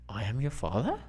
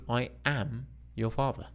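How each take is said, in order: First: The voice rises at the end. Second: The voice falls at the end.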